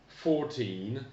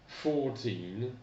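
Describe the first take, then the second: The two takes are said the same way.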